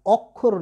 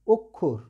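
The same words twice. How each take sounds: First: অক্ষর said as "ɔkkhor", first vowel an open ɔ; teacher mimics the common mistake, অক্ষর with an open "ɔ"; wrong pronunciation. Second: অক্ষর said as "okkhor", first vowel a closed rounded o; correct pronunciation. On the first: Teacher showing students the wrong way, অক্ষর as "ɔkkhor". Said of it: "এটা কিন্তু ভুল হবে". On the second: Teacher giving students the right form, অক্ষর as "okkhor". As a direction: say অক্ষর with a closed "o", not an open ɔ. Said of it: "উচ্চারণটা হবে". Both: Shown as a demonstration.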